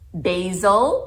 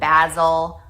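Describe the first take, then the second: First: It is said with an American pronunciation. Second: It is said with a British pronunciation. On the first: "we say those in a way that grates people's gears, like basil" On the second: "instead of basil"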